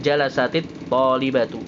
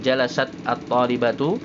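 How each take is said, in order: First: The words are linked with an 'i' vowel. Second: The two words are said separately, without linking. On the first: The speaker calls it right. "tapi jalasatit talibatu ya, jadi supaya dibacanya bersambung" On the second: The speaker calls it wrong. "bukan jalasat at-talibatu"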